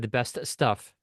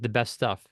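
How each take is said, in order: First: The S T sound is said separately in each word. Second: The shared S T sound is linked across words. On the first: "They did not say the best stuff" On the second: "The S T was just connected as one S T"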